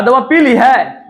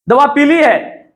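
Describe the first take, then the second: First: पीली split into पी and ली, weight on पी; पी ली as drinking. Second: पीली run together as one word, meaning yellow. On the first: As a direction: lean on the पी of पीली, as in having drunk. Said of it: "दवा पिलाने का बोध हो रहा है". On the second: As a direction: say पीली unbroken, as the colour. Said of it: "एक रंग का बोध हो रहा है". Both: Shown as a demonstration.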